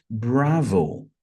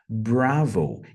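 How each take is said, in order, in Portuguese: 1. A palavra tem pronúncia do inglês. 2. A palavra tem pronúncia do inglês.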